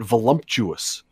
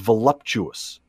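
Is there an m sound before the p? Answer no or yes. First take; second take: yes; no. First: The word has an m sound before the p. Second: The word has no m sound before the p. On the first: The speaker calls it wrong. "people have mispronounced it now and called it voluptuous" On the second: The speaker calls it right. "The right word is voluptuous"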